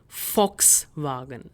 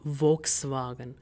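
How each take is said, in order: First: The first sound is an 'f'. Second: The first sound is a 'v'. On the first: The speaker calls it right. "but rather ... V is pronounced as V, so we have f sound in it" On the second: The speaker calls it wrong.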